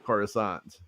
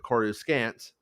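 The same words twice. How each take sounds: First: The name is said with a French-sounding spin. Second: The name is said the plain English way. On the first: This is the newer, changed way to say it. "let's put the French spin on it" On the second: This is the older way everyone said it. "everyone called it Coruscant"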